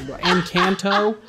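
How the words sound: It is said with an American accent. "I was just going to say like the American way"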